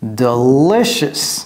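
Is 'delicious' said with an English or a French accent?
English. It is said with an English accent. The speaker calls it right. "Vous voyez comment j'ai prononcé ça?"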